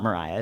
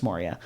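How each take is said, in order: First: Mariah with an EYE vowel in the middle; Mariah, stressed on a long RYE; mistaken name Mariah. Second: Moria with an OR sound up front; Moria, stressed on the first syllable; corrected name Moria. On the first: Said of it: "It's Moria". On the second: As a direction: say Moria as MOR-ee-uh. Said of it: "It's not Mariah". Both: Shown as a demonstration.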